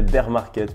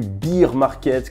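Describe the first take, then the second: First: It is said with an English accent. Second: It is said with a French accent. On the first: The speaker calls it right. "pour les personnes qui ont une meilleure prononciation" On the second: The speaker calls it wrong. "comme disent les Français"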